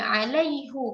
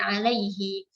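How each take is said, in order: First: The word ends with a 'u' vowel. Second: The word ends with an 'i' vowel. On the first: The speaker calls it right. "kita baca dengan dhammah huruf ha-nya" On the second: The speaker calls it wrong. "tidak kita baca dengan alaihi"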